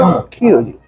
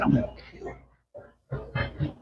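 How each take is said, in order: First: Said in the usual way. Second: Slow, breathless whispered threat. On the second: Retold or imitated. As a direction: hiss the threat slowly like a menace. Retold death threat from cop.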